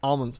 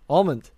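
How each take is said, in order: First: The word ends without a d sound. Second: The word ends with a d sound. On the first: The speaker calls it wrong. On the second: The speaker calls it right. "Put that D on almond"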